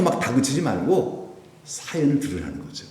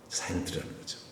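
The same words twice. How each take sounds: First: Said in the usual way. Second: Softly whispered, under the breath; whispered repeat. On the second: Shown as a demonstration. (속삭이듯 조용히 반복)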